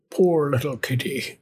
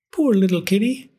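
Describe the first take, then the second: First: Put-on pitying old man. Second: Put-on higher, tender old woman voice; pitying old woman. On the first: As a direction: murmur it like a gentle old man. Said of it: "said the very old man". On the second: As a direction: coo it like a kind old woman. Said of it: "said the very old woman". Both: A narrator's reading.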